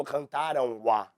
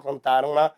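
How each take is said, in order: First: "cantaram a" said slowly, the vowels clashing with no linking sound; awkward hiatus. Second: "Cantaram a" linked with an n sound, as cantaram-na; smooth linked form. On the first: Teacher showing students the clumsy form, slow and awkward. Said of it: "Pronunciar dessa forma fica mais complexo". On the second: Teacher showing students the easier form, smooth and linked. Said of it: "facilita o processo". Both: Shown as a demonstration.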